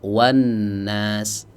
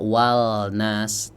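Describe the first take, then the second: First: The L merges into a doubled n sound. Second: The L sound is clearly pronounced. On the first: The speaker calls it right. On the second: The speaker calls it wrong. "tidak dibaca"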